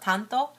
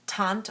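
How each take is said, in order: First: The word ends with an 'o' vowel. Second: The word ends with an 'e' vowel. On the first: This is the Japanese name. "in Japanese we call it" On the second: This is a reading of the English spelling. "in English, by the way they've written it, should be"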